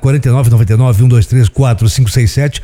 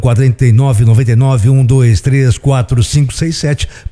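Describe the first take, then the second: First: The number is said at normal speed. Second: The number is said very slowly.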